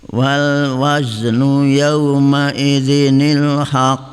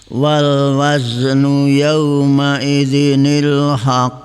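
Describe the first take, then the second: No difference in how they are said.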